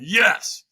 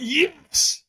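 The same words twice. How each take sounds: First: Said in the usual way. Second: YES pushed up high and strained; stronger yes. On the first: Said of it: "Squeeze your fist and say yes". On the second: Retold or imitated. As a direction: squeeze out a more forceful YES.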